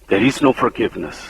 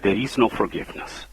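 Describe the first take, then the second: First: Said in the usual way. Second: Preacher lowers his voice to warn the congregation, softly; hushed warning. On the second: Shown as a demonstration. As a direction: drop to a soft, grave hush on no forgiveness.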